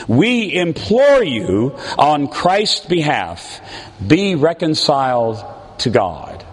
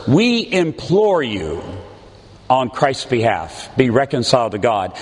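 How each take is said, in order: First: Said in the usual way. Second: "We implore you" drawn out slowly, each word pressed; slow pleading emphasis. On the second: Shown as a demonstration. Preacher repeats the plea slowly, stressing "implore". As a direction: linger on "implore" as a heartfelt plea. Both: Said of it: "Those words".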